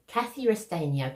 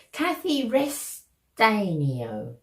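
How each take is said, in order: First: Said in the usual way. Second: Restanio spelled out slowly as res-TAY-nee-oh; very slow, careful Restanio; careful name. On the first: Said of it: "I hope I'm saying your name right". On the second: Shown as a demonstration. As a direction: sound out Kathy Restanio syllable by syllable. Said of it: "I hope I'm pronouncing this right".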